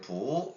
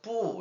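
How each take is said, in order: First: The syllable's pitch is pulled slightly upward. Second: The syllable is said strongly and forcefully. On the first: "부 이렇게 약간 끌어올리잖아요" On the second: "뿌 이렇게 해서 이제 강하게 발음했었는데"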